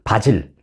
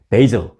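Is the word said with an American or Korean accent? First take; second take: Korean; American. First: It is said with a Korean accent. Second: It is said with an American accent. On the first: "한국식으로 표현하면" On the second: "미국식으로 표현하면"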